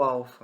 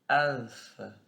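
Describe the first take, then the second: First: The word is said plainly, without curling. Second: The word has a curled, rolled sound. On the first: "ou alfa mesmo" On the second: "não precisa falar com esse enroladinho"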